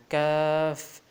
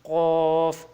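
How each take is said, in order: First: کاف light, with an open front "aa"; thin. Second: قاف heavy, rounded and loud, "qawf"; thick. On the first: Teacher contrasting letters for learners, thin کاف. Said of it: "اس کو باریک پڑھنا ہے". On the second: Teacher contrasting letters for learners, thick loud قاف. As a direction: say قاف thick, from far back. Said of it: "موٹا پڑھنا ہے اس کو". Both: Shown as a demonstration.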